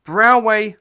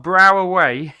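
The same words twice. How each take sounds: First: Brauway said loud in two deliberate syllables; careful pronunciation. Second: Brauway stretched slowly into Brau-a-way, loud; drawn-out pronunciation. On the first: Beer reviewer attempting a German brewery name, careful pronunciation of Brauway. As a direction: announce Brauway firmly, sounding out the foreign name. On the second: Beer reviewer retrying a German brewery name, slow drawn-out Brauway. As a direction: sound out Brauway slowly, with an extra middle syllable. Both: Shown as a demonstration. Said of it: "I'm gonna say it".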